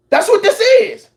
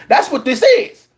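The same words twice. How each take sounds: First: Repeated much higher, pressing the point home; emphatic higher restatement of "That's what this is.". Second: Said in the usual way. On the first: Real, not acted.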